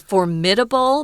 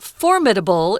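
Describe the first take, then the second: First: The stress is not on the first syllable. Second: The stress is on the first syllable. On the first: "I like to say formidable" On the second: "The strong syllable is on the first syllable"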